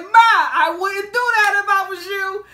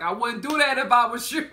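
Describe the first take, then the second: First: Loud, high, drawn-out retold warning; called-out warning. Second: Said in the usual way. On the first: Man warning a woman across the train, loud mock call. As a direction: call it across the carriage, slowly.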